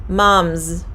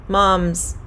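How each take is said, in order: No difference in how they are said.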